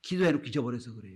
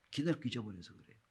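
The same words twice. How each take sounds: First: Said in the usual way. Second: 기도해놓고 repeated much softer and quick. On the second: Real, not acted. Pastor repeats the point to let it sink in, softly. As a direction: drop the voice on the repeated 기도해놓고 잊어버려서.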